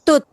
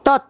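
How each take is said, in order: First: The vowel sounds like a closed u. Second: The vowel sounds like an open o. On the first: The speaker calls it wrong. "Bukan tut" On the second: The speaker calls it right.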